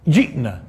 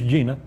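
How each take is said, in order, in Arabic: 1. الهمزة تقطع وسط الكلمة. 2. حرف المد الممتد يملأ وسط الكلمة بسلاسة. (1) "جئنا، مش جينا" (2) "مش جينا"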